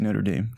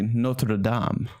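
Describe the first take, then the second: First: It is said with an American pronunciation. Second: It is said with a French-style pronunciation.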